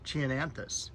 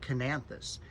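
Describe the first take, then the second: First: The word begins with a CH sound. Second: The word begins with a K sound. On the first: "we've always pronounced it" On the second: "pronounced it with a K"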